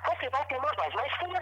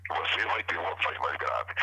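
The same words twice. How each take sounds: First: Much higher, thin voice. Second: Low, deep demo voice. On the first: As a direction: squeeze the voice up thin. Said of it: "Se você quiser uma voz mais fina". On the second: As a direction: drop the voice low. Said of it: "Se alguém precisar de uma voz mais grave". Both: Shown as a demonstration.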